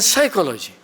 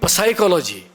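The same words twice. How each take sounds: First: The P at the start is silent. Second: The P at the start is pronounced. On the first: The speaker calls it right. "P is silent. It will be honesty and psychology" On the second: The speaker calls it wrong. "It will not be psychology"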